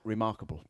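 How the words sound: A Swansea accent, with the R sounds kept short. "And in Swansea, you say remar- remarkable. ... In Swansea, they don't"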